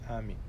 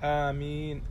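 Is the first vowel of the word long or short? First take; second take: short; long. First: The first vowel is kept short. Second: The first vowel is drawn out long. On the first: "والثانية بالقصر" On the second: "آمين بالمد وتخفيف الميم"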